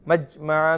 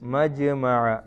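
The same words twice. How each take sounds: First: The j sound is cut short without a bounce. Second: The j sound is pressed and released with a bounce. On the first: The speaker calls it wrong. "മജ്മഅ എന്ന് ഓതരുത്" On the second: The speaker calls it right. "ജീമിന്റെ സുക്കൂനിനെ അമർത്തി ഉച്ചരിക്കണം"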